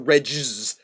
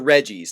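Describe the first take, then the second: First: The first part does not sound like Reggie. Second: The first part sounds like the name Reggie. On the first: The speaker calls it wrong. "not the Regis" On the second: The speaker calls it right. "It's the Reggies"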